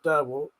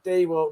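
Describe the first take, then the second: First: The first syllable sounds like 'der'. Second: The first syllable sounds like 'dee'. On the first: The speaker calls it wrong. "not Derwalt" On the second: The speaker calls it right. "Tom said it's D-Walt"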